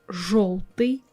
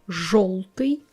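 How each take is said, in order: Both takes have the same delivery.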